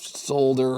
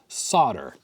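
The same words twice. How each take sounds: First: It is pronounced the Canadian way. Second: It is pronounced the US way, L silent. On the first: "I'm saying it the Canadian way" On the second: "I mostly say it the U S way. ... The L is silent"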